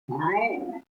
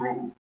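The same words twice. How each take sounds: First: The vowel is long and drawn out. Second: The vowel is short. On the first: "the dirgha one is ru" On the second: "short one"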